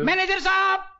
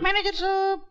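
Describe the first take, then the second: First: The phrase is said loudly. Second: The phrase is said softly. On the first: "जोर से बोल।" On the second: "थोड़ा आस्ते बोल।"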